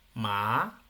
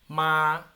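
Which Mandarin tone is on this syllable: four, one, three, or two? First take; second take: two; one. First: The syllable is said with the rising second tone. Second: The syllable is said with the first tone. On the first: "el dos" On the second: "el uno"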